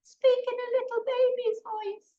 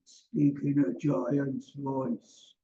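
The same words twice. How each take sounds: First: Put-on very high, squeaky little baby. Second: Slow, low, lumbering giant; giant's voice. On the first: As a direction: put on a tiny baby's voice, pitched way up. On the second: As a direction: put on a big giant's voice, deep and drawn out. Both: Shown as a demonstration.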